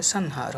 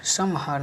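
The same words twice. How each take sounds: First: संहार with n, san-har; nasal n before h in संहार; corrected form. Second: संहार with m, sam-har; wrong form. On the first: Teacher corrects students, संहार as san-har. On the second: Teacher shows the error, संहार as sam-har. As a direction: close the lips before h in संहार. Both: Shown as a demonstration. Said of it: "नहीं होता है".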